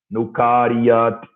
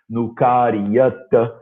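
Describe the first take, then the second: First: The word ends with a final consonant sound. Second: The word ends with a final vowel sound. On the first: "Outra maneira de pronunciar" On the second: "Nukaryata é um jeito de pronunciar"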